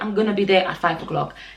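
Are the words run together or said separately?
run together. The words run together in a contracted form. The speaker calls it wrong. "Don't say"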